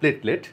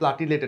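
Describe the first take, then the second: First: The two syllables join with no extra vowel. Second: An extra vowel is heard between the two syllables. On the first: The speaker calls it right. "আসল উচ্চারণ হবে প্লেটলেট" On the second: The speaker calls it wrong. "অনেকে প্লাটিলেট এটার উচ্চারণ করে"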